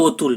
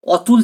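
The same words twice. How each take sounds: First: অতুল with a rounded "oh" at the start; first অ of অতুল turned into ও; vowel shifted to O. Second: অতুল with an open "aw" at the start; natural unshifted অ in অতুল; open first vowel. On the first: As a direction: say অতুল as "oh-tul". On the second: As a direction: say অতুল as "aw-tul". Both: Shown as a demonstration. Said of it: "অটা change হয়ে ও".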